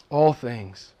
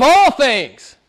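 First: Low, soft repeat for weight; hushed echo. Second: Raised, ringing preacher's climax; emphatic climax. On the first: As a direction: drop right down and let it sink in. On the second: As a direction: drive it home, pitched high. Preacher climaxes, then echoes it softly. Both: Real, not acted.

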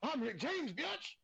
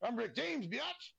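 First: High, squealing "biatch" at the end, even higher. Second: High, squealing "biatch" at the end. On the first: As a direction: repeat the catchphrase with more squeal. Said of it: "I said". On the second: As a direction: belt out the catchphrase like the star. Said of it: "Have you ever heard the saying". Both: Retold or imitated.

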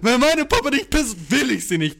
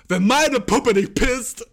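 First: Put-on whiny little girl. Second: Laughing through the words. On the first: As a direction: whine it like a spoiled kid. Quoting girls, slower, higher. (höher, langsam, quengelnd) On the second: Retold or imitated. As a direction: giggle through the quote. Laughing while quoting girls.

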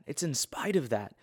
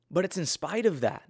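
First: Said in the usual way. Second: Spite said higher and pressed hard; emphatic first take. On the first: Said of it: "quieter repeat". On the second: Real, not acted. Speaker to viewers, stressing "spite" higher and firmly. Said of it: "repeated for emphasis".

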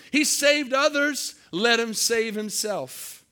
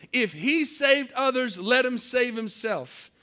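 First: High, slow, loud jeering sneer; mocking taunt. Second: Slightly raised, slow mocking repeat; mocking taunt. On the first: Preacher voicing the crowd taunting Jesus, loud mocking jeer. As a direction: taunt him like the crowd at the cross. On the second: Preacher repeating the crowd's taunt, milder mocking. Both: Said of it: "They're mocking him".

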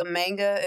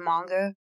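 First: "manga" with a flat short a, as in man; "manga" the anglicized way, rhyming with tang-uh; mispronounced manga. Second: "manga" with an open ah in the first syllable; "manga" the Japanese way, with a long ah; correct manga. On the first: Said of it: "says manga instead of manga". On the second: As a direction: say "manga" like MAHN-guh. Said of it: "instead of manga". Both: Shown as a demonstration.

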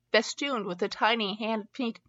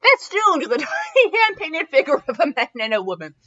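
First: Said in the usual way. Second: Loud, high, giddy delivery; giddy reading. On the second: Real, not acted. Reader resuming the story still tickled by festooned, giddy. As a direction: read on while bubbling over the first word.

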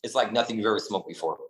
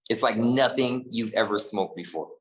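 First: Said in the usual way. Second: Slow, stretched emphasis on "nothing"; stress on NOTHING. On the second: Real, not acted. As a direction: lean on "nothing" and slow the whole line down. Repeats the claim for emphasis.

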